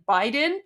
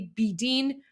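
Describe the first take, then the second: First: The name begins with a 'bye' sound. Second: The name begins with a 'bee' sound. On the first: The speaker calls it wrong. "that's how you guys read it, like Biden, but it's not Biden" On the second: The speaker calls it right. "but it's actually B Dean"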